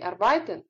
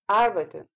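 First: The stress is on the second syllable. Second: The stress is on the first syllable. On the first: The speaker calls it wrong. "Это неправильное произношение данного слова, потому что ударение падает совершенно не туда" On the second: The speaker calls it right. "Это слово произносится с ударением на первый слог"

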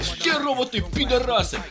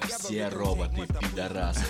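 First: It is said in an aggressive, forceful tone. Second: It is said in a calm, serious tone. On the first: "я им говорю агрессивно" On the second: "я вам ответственно заявляю"

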